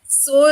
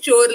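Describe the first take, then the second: First: The word begins with an s sound. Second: The word begins with a ch sound. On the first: This is how most regions say it. "what is pronounced as sore in re- the rest of the Tamil Nadu" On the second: This is how the speaker's home region says it. "pronounced as chore"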